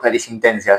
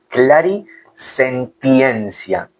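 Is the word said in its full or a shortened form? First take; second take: shortened; full. First: The word is said in a shortened form. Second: The word is said in its full form. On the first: "yo después yo le digo clarisintencia" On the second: "Es clarisentiencia"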